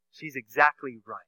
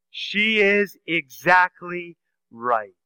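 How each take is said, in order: First: Said in the usual way. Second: Very slow, leaning on is; slow emphatic. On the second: Real, not acted. Preacher insisting to the congregation that Mary was right, slow and weighty. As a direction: weigh each word slowly, stress on "is".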